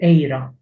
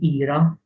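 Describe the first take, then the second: First: The first vowel is an 'ay'-like sound. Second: The first vowel is a plain 'ee' sound. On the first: The speaker calls it right. "you say it eira" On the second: The speaker calls it wrong. "you don't say ira"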